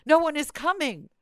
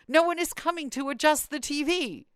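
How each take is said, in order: First: High, loud mock complaint from an aged mother; mother's high-pitched grievance on the phone; whiny complaining mother. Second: High-pitched mock grievance; the mother's indignant phone complaint; lightly hammed-up mother complaining; whiny complaining mother. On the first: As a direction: play the indignant mother calling again.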